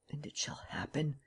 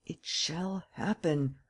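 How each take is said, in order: First: Fully whispered, no voice. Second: Very slow, softer, drawn out; slow hushed. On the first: Lupin whispering his vow to himself alone. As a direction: breathe it like a secret vow. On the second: Lupin slowly repeating his vow in the dark. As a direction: let each word fall slowly. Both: A narrator's reading. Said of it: "delirious words rose to his lips".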